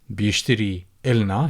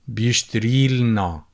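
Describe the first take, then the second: First: A vowel is said before the l sound. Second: The vowel before the l sound is dropped.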